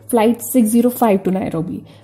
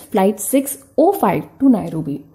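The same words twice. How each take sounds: First: The zero in the number is said as zero. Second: The zero in the number is said as oh. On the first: The usual way the speaker says it. "we generally pronounce zero as zero" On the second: The way many other countries say it. "in other countries it is pronounced as"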